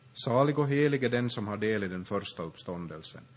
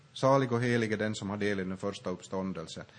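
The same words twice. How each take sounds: The two takes are said the same way.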